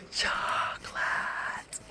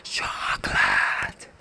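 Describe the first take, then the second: First: Slow, drawn-out unvoiced whisper; whispered cartoon quote. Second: Slow, much lower, breathy whisper; whispered cartoon quote. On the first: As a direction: breathe the word like a craving cartoon guy. Repeats the SpongeBob quote. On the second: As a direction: hush the word like a cartoon guy craving it. Quoting SpongeBob episode "Chocolate.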